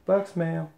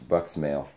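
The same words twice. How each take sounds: First: A silly falsetto echo of the phrase; high squeaky voice. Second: Said in the usual way. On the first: Pretend. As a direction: jump way up and squeak it out.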